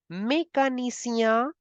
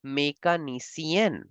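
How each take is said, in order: First: Mécanicien ending in a nasal vowel; masculine form. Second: Mécanicienne with a clear n at the end; feminine form. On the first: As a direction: say the masculine, rising. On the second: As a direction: say the feminine, falling. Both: Shown as a demonstration. Teacher contrasts masculine and feminine job words. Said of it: "for feminine".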